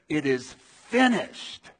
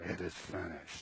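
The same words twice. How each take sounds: First: It is cried out loudly. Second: It is murmured quietly.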